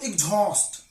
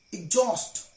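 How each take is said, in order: First: EXHAUST with a breathy H, "ig-jhost"; EXHAUST with H puffed after the X; wrongly sounded H. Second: EXHAUST as "ig-jost", with no H; silent H. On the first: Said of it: "not exhaust". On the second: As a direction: drop the H in EXHAUST. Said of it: "H is always silent when it is after X". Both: Shown as a demonstration.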